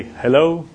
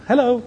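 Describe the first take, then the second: First: Said in the usual way. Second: "Hello" lifted high and quick, like a caller teasing. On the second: Shown as a demonstration. Caller on the phone chirping "Hello" without giving a name. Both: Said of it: "call and just say".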